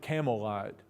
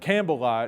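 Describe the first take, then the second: First: The first part sounds like 'camel'. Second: The first part sounds like 'camp bell'. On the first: This is how people said it in earlier times. "He would have pronounced it Camelite, like the cigarette" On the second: This is the spelling-based way of saying it. "or it's written Campbellite"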